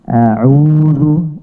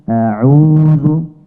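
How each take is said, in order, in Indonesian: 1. Hamzah pembuka diucapkan tipis dan ringan. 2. Hamzah pembuka diucapkan tipis dan ringan.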